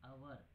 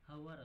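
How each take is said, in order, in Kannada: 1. ಈ ಪದ ನೇರವಾಗಿ ಸ್ವರದಿಂದ ಪ್ರಾರಂಭವಾಗುತ್ತದೆ. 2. ಈ ಪದ ಹ್ ಶಬ್ದದಿಂದ ಪ್ರಾರಂಭವಾಗುತ್ತದೆ. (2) "ಅದು ಹವರ್ ಅಲ್ಲ"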